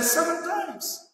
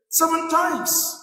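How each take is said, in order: First: Slow, higher and softer; slow Peter quote. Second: Slow, weighed offer, a little higher; slow Peter quote. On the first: Peter offers Jesus his count, slow and softer. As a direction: lay out the number slowly like a proud offer. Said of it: "Peter went to Jesus and said". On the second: Preacher quotes Peter to Jesus, slow and deliberate. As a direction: Peter stretching out his generous number. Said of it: "he said to him". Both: Retold or imitated.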